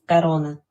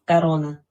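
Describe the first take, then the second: No difference in how they are said.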